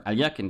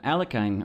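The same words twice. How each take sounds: First: Alyekin as al-YEK-in; corrected pronunciation. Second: Alekhine as AL-uh-kine, rhyming with 'fine'; mistaken pronunciation. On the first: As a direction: say Alyekin with a 'ly' glide and short last syllable. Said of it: "it should be closer to Alyekin". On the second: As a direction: say Alekhine with a long 'eye' in the last syllable. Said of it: "I've been mispronouncing it this entire time". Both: Shown as a demonstration.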